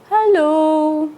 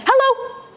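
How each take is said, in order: First: It is said very slowly. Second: It is said very fast.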